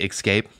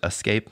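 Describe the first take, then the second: First: The word begins with an 'ex' sound. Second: The word begins with an 'es' sound.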